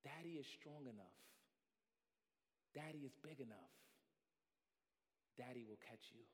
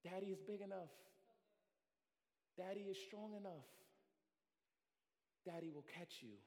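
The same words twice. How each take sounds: First: Soft, low, calm reassurance; reassuring father. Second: Soft, calm reassurance; reassuring father. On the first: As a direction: gently promise to catch. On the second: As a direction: quietly promise to catch. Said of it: "the father ... says". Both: Acted. Father below the branch reassuring child, soft and calm.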